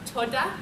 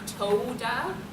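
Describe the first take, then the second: First: The O vowel is shorter and lighter. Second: The O vowel is a long O. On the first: The speaker calls it right. "it's more toda. It's like a lighter sound" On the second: The speaker calls it wrong. "it's the O sound isn't quite a long O, it's not toda"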